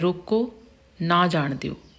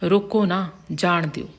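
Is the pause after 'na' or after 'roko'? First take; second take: after roko; after na. First: There is a pause right after the first word. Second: There is a pause right after the second word. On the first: Do not let the person go. "ਪਹਿਲੇ ਵਿੱਚ ਹੈ" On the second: Let the person go. "ਅਗਲਾ ਜੋ ਵਾਕ ਹੈ"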